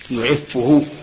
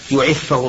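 First: The doubled f is followed by a u vowel. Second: The doubled f is followed by an a vowel. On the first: "يعفه بالضم" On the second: "يخفف بالفتحة فيقال مثلا يعفه الله"

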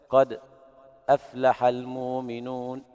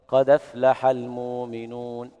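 First: A brief silent pause comes before aflaha. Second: The d links straight into aflaha, with no glottal stop. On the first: "يقرأ بالسكت" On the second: "نقل حركة الهمزة إلى الساكنة قبلها"

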